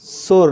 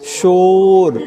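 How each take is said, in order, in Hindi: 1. शब्द की शुरुआत एक सादी s ध्वनि से होती है। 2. शब्द की शुरुआत एक sh ध्वनि से होती है। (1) "शोर नहीं बाबा" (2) "ये वो यूपी वाली सुधार है"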